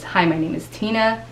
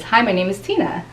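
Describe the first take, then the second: First: "Hi, my name is Tina," with a falling down tone. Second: "Hi, my name is Tina." with a friendly up tone. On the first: Coach demoing a falling down tone on "Hi, my name is Tina". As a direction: let "Tina" drop down, credible and final. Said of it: "So down tone is". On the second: Coach contrasting an up tone on "Hi, my name is Tina". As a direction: lift "Tina" up, open and inviting. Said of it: "versus up tone is". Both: Shown as a demonstration.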